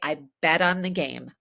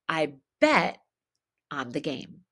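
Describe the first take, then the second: First: The T in bet sounds like a D, linked. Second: The T in bet is stopped before a pause. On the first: "by turning it into a D" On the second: "if I pause, I would need to stop the T"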